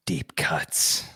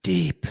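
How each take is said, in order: First: Breathy hypnotist whisper. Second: Said in the usual way. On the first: Pretend. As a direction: lull them under like a stage hypnotist. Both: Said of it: "that was my, uh, hypnotist voice".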